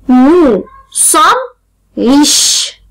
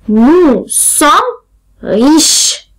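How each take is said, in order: Both takes have the same delivery.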